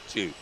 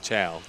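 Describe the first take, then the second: First: The vowel sounds like 'oo' in two. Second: The vowel sounds like 'ow' in cow. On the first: The speaker calls it right. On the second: The speaker calls it wrong. "Not Chow"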